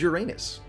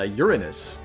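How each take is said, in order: First: It uses the common American pronunciation of the name. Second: It uses the literary pronunciation of the name. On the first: It is the form most people commonly use. "But the common American pronunciation is" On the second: It is the form some astronomers prefer. "The literary pronunciation of the planet's name would be"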